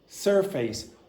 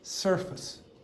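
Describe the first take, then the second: First: Both syllables are said with equal strength. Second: The second syllable is weak and reduced. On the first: The speaker calls it wrong. "saying each syllable has the same strength" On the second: The speaker calls it right. "the pronunciation that I would produce"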